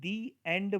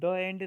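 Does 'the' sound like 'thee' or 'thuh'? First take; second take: thee; thuh. First: 'The' is said with a long 'ee' vowel. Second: 'The' is said with a short 'uh' vowel. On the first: The speaker calls it right. "हम दी एंड बोलते हैं" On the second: The speaker calls it wrong. "हम कभी द end नहीं बोलते"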